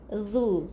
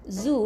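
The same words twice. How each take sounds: First: The consonant is a soft th-like sound. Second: The consonant is a plain buzzing z sound. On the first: The speaker calls it right. "lidah ke depan sikit eh keluar sikit" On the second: The speaker calls it wrong. "bukan zu"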